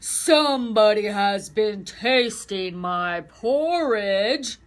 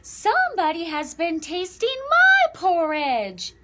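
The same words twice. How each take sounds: First: It is said in a deep, big voice. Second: It is said in a medium-sized voice.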